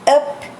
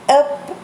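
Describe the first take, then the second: No difference in how they are said.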